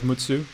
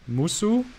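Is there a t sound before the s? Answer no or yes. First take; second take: yes; no. First: The name is said with a t before s. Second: The name is said without a t before s. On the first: "Instead of Mutsu" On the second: "So this would be Musu? Is that how you pronounce it?"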